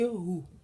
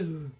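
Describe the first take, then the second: First: It ends with an h plus u vowel. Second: It ends on a bare h sound. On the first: The reader continues to the next word. "we are reading on, then we say" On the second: The reader stops at this word. "if we are stopping on this ha, we just say"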